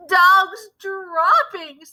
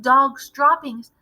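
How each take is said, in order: First: High, slow drawn-out cry; slow dreaded cry. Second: Said in the usual way. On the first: Acted. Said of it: "they cried". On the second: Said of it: "taken up the dreaded cry of".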